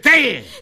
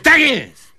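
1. Słowa są skrócone w jedno krótkie słowo. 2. Oba słowa są wypowiedziane w całości. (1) "W skrócie" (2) "Mówi się"

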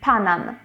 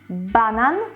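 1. Pierwsza spółgłoska jest wymawiana jako bezdźwięczna. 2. Pierwsza spółgłoska jest wymawiana jako dźwięczna.

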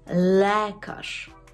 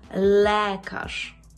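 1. Голосний після «l» залишається чітким e. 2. Голосний після «l» залишається чітким e.

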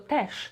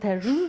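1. Końcowa spółgłoska jest bezdźwięczna. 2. Końcowa spółgłoska jest dźwięczna. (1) "tylko też" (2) "Nie powiemy też"

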